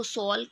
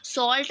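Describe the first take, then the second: First: सॉल said as "sol", no t at the end; final t dropped. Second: Said in the usual way. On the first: Shown as a demonstration. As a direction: say सॉल with the t cut off. (सॉल को बिना ट के बोलें) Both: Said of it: "तो उसको सॉल".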